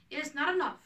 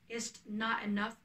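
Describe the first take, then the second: First: Not punched higher and louder; rising indignation on the repeat; indignant repeat. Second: Said in the usual way. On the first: Acted. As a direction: hit not harder the second time. Helena repeats her protest.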